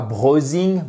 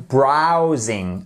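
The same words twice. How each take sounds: First: BROWSING said as BRO-zing; mispronounced "browsing", long o in place of ow; wrong vowel. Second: BROWSING said as BRAU-zing; drawn-out "browsing", open ow sound; correct vowel. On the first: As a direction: say "browsing" with an o as in rose. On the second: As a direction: say "browsing" with ow as in cow. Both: Shown as a demonstration. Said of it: "Et pas browsing".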